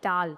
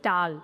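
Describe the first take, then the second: No difference in how they are said.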